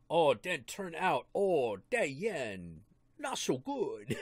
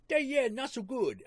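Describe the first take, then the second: First: Slow, hammed-up Chinese accent; mock Chinese accent. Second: High, broad hammed-up Chinese accent; mock Chinese accent. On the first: Friend jokes about the yen in a mock Chinese accent. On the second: Friend repeats the yen joke in a broader mock Chinese accent. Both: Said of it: "stereotypical Chinese accent".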